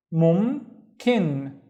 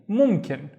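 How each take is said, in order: First: "mum" and "kin" said separately; split into syllables. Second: Said in the usual way. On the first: Shown as a demonstration. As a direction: break it apart: "mum", pause, "kin". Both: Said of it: "let me split it into syllables".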